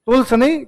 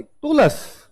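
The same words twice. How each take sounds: First: टूल्स said wrongly, higher and rising; mock the mistaken टूल्स; wrong pronunciation. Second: टूल्स said correctly, higher and falling; correct pronunciation. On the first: Teacher mimics students' mistake on टूल्स. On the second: Teacher corrects the class: टूल्स said properly. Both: Shown as a demonstration.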